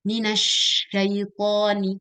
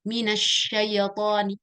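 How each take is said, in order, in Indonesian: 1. Bunyi y dibaca halus. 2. Bunyi y dibaca mantul, ada sentakan. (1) "dia masih ada haknya" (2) "ya-nya qalqalah mantul"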